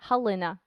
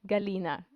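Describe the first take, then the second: First: The name begins with a soft, breathy G. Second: The name begins with a hard G sound. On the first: This is the Ukrainian way of saying the name. "In Ukrainian, ... So we have a soft G" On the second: This is the Russian way of saying the name. "In Russian, that's how you say it"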